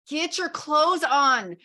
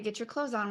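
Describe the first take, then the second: First: It is said in an angry, charged tone. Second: It is said in a calm, neutral tone.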